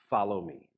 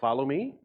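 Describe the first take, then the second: First: It is said as a firm command. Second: It is said as a tentative question.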